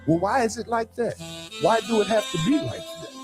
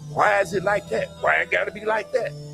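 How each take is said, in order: First: It is asked in a calm, respectful tone. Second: It is asked in a defiant, confrontational tone.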